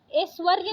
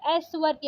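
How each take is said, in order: First: ऐश्वर्य starting with closed e; wrong vowel. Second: Said in the usual way. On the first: Shown as a demonstration. Teacher rejecting a spelling, ऐश्वर्य with plain e. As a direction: say ऐश्वर्य as "esh-varya". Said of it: "ऐश्वर्य नहीं होता है". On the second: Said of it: "ऐश्वर्य होता है".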